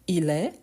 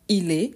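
First: The vowel in 'est' is open. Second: The vowel in 'est' is closed. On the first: "un son un peu plus ouvert" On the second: "on peut prononcer un peu plus fermé"

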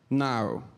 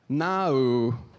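First: A plain British 'No' with few syllables. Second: A more British 'No' with more syllables.

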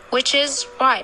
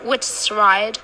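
First: The word is is said in full. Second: The word is is contracted onto which. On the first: The speaker calls it right. "the strong form is always used" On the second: The speaker calls it wrong. "We don't say which's right"

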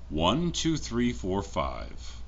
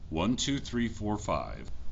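First: The recording level is set to 80 percent. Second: The recording level is set to 70 percent. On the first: "another audio test with the audio set to 80%" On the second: "This is with audio set to 70%"

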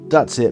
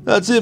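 First: It is said in a plain, ordinary voice. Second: It is said in a put-on character voice. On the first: The speaker calls it wrong. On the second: The speaker calls it right.

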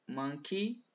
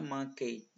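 First: The final syllable ends with an 'ee' sound. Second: The final syllable ends with an 'ay' sound. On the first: The speaker calls it right. "vai ter apenas som de I" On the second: The speaker calls it wrong. "não é monkey"

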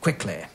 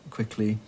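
First: The final vowel is more open and lax. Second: The final vowel is close, like in beat. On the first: This is the older public school style. "in the earlier one, they're saying things like" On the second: This is the newer public school style. "the newer trend is to make it closer, more like the E of beat"

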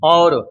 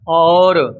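First: The vowel is short and said quickly. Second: The vowel is drawn out long. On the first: "ਸੰਕੋਚ ਕੇ ਬੋਲਣਾ ਛੇਤੀ" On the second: "ਪਹਿਲਾ ਸ਼ਬਦ ਥੋੜਾ ਲੰਮਾ ਕਰਕੇ ਬੋਲਿਆ ਹੈ"

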